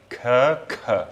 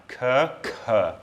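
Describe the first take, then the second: First: "k" with no breath, then "k" with a puff of air; "k, k": first clean, second aspirated; unaspirated then aspirated k. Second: "K" with no breath, then "k" with a puff of air; "K, k": first clean, second breathy and aspirated; unaspirated then aspirated k. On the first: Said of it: "That second one is aspirated". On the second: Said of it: "I'll say them back to back now". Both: Shown as a demonstration.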